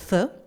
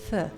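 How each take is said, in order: First: The th sound is hard and strong. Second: The th sound is soft and subtle. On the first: The speaker calls it wrong. "not a really tough one like th" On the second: The speaker calls it right. "It's th"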